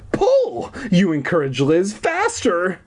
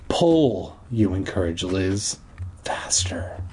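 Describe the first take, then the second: First: It is read in a plain narrating voice. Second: It is read in a sultry, romantic voice.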